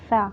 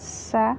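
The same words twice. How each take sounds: First: The s sound is plain, without a whistle. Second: The s sound is sharp and whistling. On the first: The speaker calls it wrong. "some people pronounce it like Sa. That's wrong" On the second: The speaker calls it right. "Sin has a sharply whistling sound"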